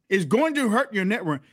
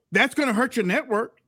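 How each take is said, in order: First: GOING TO said in full, not gonna; emphatic restatement. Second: Said in the usual way. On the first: Real, not acted.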